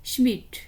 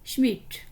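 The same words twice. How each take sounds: Both takes have the same delivery.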